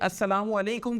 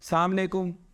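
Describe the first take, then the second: First: The greeting is said with every syllable in full. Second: The greeting is clipped, dropping its opening syllables. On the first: It carries a fine, clear meaning. The speaker calls it right. "अस्सलामु अलैकुम का तो एक बेहतरीन मतलब बनता है" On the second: The meaning is lost or changed. The speaker calls it wrong. "पता नहीं क्या किया"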